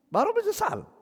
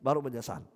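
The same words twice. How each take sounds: First: High, squeaky mocking jab; mock the late regret in a shrill falsetto; a squeaky sneer at regret that came too late; mocking squeal. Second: Said in the usual way. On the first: Preacher mocks the late regret.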